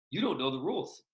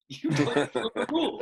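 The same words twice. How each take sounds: First: Said in the usual way. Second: Higher and louder, laughing through "You don't know the rules."; laughing retort. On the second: Retold or imitated.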